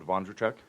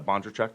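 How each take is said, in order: First: The name begins with a V sound. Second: The name begins with a B sound. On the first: The speaker calls it wrong. "I always think it's pronounced with a V" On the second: The speaker calls it right. "but it is uh"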